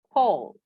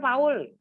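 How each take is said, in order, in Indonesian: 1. Nama itu diucapkan dengan lafal Inggris. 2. Nama itu diucapkan dengan lafal Indonesia. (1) "kalau dalam bahasa Inggris ini tidak dibaca dengan Paul, tapi Paul" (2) "Kalau orang Indonesia bilangnya Paul ya"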